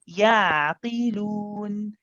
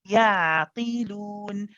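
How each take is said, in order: Both takes have the same delivery.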